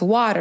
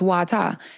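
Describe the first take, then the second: First: It is said in an American accent. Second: It is said in a Virgin Islands accent.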